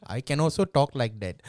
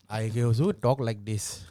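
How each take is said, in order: First: Different voice. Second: Put-on voice. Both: Shown as a demonstration.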